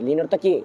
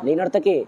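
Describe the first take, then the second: No difference in how they are said.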